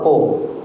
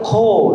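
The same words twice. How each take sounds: First: The first consonant is said without aspiration. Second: The first consonant is said with aspiration. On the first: The speaker calls it wrong. "not ko" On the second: The speaker calls it right. "when there's an H, you have to make an aspirate"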